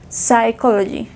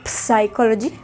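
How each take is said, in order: First: "psychology" starting straight on the S, P left silent. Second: "psychology" with the P wrongly voiced as a puff before S; P sounded. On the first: Teacher giving the correct "psychology", silent P. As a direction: say "psychology" as sai-KOL-o-jee, without any P. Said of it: "la P es muda". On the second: Teacher showing how not to read "psychology", P pronounced. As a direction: say "psychology" starting with an audible P-S cluster. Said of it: "No se lee psychology". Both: Shown as a demonstration.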